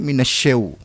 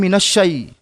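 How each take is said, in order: First: The word ends with an 'au' sound. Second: The word ends with an 'ai' sound. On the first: The speaker calls it wrong. "banyak sekali yang keliru dalam membaca" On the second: The speaker calls it right. "seharusnya minasyai"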